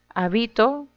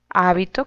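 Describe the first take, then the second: First: The stress is on the second syllable. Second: The stress is on the first syllable. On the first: I live somewhere. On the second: A garment, such as a religious robe.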